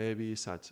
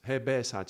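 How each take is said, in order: First: "Be" slipped to "bee"; mistaken vowel. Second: "Be" as open "beh"; corrected vowel. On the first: Teacher misquoting the mantra, "Be" said as "bee". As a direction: say "Be" as quick "bee", with ee. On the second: Teacher correcting a slip, "Be" said as open "beh". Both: Real, not acted.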